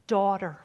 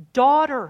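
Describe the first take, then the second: First: Said in the usual way. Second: Daughter called out higher and loud; loud tender call. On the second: Shown as a demonstration. Preacher voicing Jesus to the woman, loud proclaimed Daughter. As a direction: lift Daughter up and ring it out. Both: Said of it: "listen to this".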